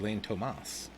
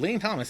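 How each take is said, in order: First: The name is pronounced the Spanish way. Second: The name is pronounced the English way.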